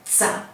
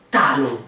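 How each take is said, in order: First: The t is said like ts. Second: The t is a plain t sound. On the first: The speaker calls it wrong. "on dit pas tsa ou tcha" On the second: The speaker calls it right. "on dit talon"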